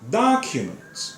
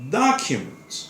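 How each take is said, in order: First: It is said the American way, first syllable stressed. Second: It is said the American way, first syllable stressed.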